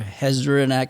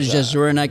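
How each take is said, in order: First: The name begins with an H sound. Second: The name begins with a J sound. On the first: "I'm not sure if you pronounce the J" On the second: "How about Jezrnak"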